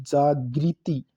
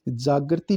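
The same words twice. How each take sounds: First: जागृति drawn out slowly as "jaa-gri-ti"; correct pronunciation. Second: जागृति said "jaagarti"; wrong pronunciation. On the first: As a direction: stretch जागृति with a clear "gri". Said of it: "ग के नीचे री आएगा". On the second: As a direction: say जागृति with "gar" in place of "gri". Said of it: "जागृति नहीं". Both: Shown as a demonstration.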